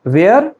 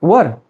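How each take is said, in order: First: "Where" rising, with an open e as in air; "Where" with a long open e; wrong were. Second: "were" with a central vowel, wur; "were" falling, with an uh vowel; correct were. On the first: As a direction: say "Where" as ve-r, offered as a question. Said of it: "the correct pronunciation is not where". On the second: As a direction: say "were" as wur, rhyming with fur. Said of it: "the correct one is were". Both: Shown as a demonstration.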